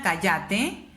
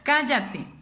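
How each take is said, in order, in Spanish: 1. El acento está en la segunda sílaba. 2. El acento está en la primera sílaba. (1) "en la penúltima" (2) "O en la antepenúltima, que sería"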